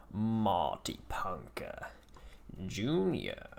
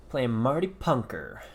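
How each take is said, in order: First: Slow, unvoiced whisper of the name. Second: Said in the usual way. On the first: Real, not acted. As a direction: breathe the name out slowly. Repeats opponent name under breath.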